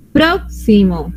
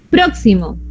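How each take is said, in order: First: "próximo" very slow, leaning on "pró"; stress on first syllable. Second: Said in the usual way. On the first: Shown as a demonstration. Teacher marking the esdrújula stress for students, very slowly. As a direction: drag "próximo" out, hitting "pró". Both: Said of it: "palabra esdrújula".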